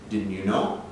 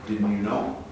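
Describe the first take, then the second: The two takes are said the same way.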